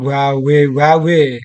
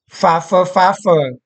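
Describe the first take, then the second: First: The word starts with a W sound. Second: The word starts with a V sound. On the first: The speaker calls it wrong. "bukan wawe-wawe" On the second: The speaker calls it right. "kok beliau kalau bicara fave-fave"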